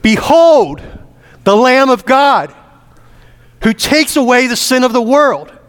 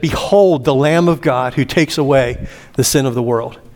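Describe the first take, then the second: First: It is proclaimed in a loud, thunderous voice. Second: It is said at a normal speaking volume.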